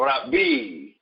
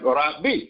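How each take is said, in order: First: The word ends in a long vowel. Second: The word ends in a short vowel. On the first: "instead of Rabbi" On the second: "you just have Rabbi"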